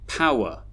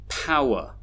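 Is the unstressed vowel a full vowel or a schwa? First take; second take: schwa; schwa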